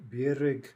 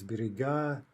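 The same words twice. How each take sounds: First: Birig with stress on the first vowel; stress on first syllable. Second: Biriga with stress on the final a; stress on last syllable. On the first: Teacher giving the singular, Birig stressed up front. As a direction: lean on the opening syllable of Birig. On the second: Teacher giving the plural, biriga stressed on the ending. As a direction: slowly land on the end of biriga. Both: Shown as a demonstration. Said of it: "These are all in-stressed".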